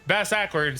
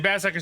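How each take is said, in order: First: The name is read slowly and carefully. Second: The name is read quickly and slurred. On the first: The speaker calls it right. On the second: The speaker calls it wrong.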